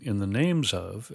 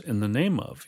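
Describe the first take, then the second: First: Slow down and lean on "names", plural; "names" drawn out to mark the plural ending; stress on NAMES. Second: Said in the usual way. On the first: Shown as a demonstration. Teacher contrasting the wording with the verse, stress on "names". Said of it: "rather than saying". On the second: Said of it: "using the singular for name".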